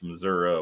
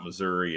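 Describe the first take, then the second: First: Missouri is said the local southern way. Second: Missouri is said the standard, non-local way. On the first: The speaker calls it right. "It's Missouri once you get down there" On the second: The speaker calls it wrong. "It's not Missouri"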